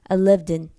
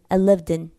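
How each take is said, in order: Both takes have the same delivery.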